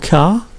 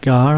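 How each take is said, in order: First: The name begins with a K sound. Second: The name begins with a hard G sound. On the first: "some languages pronounce that Car" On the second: "I know it's a G"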